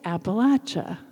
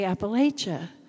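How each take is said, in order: First: It is said the way locals say it. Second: It is said the way outsiders say it. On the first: The speaker calls it right. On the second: The speaker calls it wrong.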